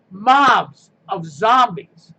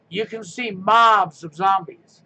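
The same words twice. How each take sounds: First: Slow, louder shout of mobs of zombies; emphatic shout. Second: Said in the usual way. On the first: Real, not acted. Ranting to viewers about protesters, drawn-out shout. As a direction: hammer the phrase mobs of zombies home.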